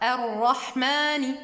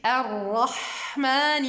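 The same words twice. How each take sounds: First: The h sound is tight, without flowing breath. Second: The h sound is breathy and flowing. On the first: The speaker calls it wrong. "Ne dites pas ar-rahmani" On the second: The speaker calls it right. "Vous voyez"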